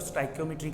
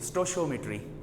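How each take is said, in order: First: It starts 'sty-ko' with a hard k sound. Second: It starts 'sto-shee' with a sh sound. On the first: "इसको बोलने के तीन तरीके हैं। एक तो स्टाइकोमेट्री कहा जाता है" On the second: "ਆਪਾਂ ਇਹਨਾਂ ਨੂੰ ਕਹਿੰਦੇ जे"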